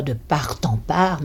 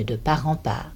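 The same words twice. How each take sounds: First: "part en part" with the t of the first "part" sounded into "en"; t linked before "en"; wrong liaison on t. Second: "part en part" with r linked into "en", t silent; no t before "en"; liaison on the r. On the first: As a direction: say "part en" as par-tan. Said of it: "On ne dit pas". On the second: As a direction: say "part en" as pa-ran. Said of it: "mais de part en part". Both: Shown as a demonstration.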